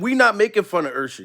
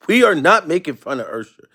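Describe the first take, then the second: First: Said in the usual way. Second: NOT punched in a spelled-out disclaimer; emphatic weight on "are not"; stress on NOT. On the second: Real, not acted. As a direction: hit "are not" firmly, word by word.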